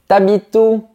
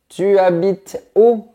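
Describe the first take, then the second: First: The vowel of 'tu' is dropped. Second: The vowel of 'tu' is fully pronounced. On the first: "la lettre U de tu disparaît" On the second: "Au lieu de"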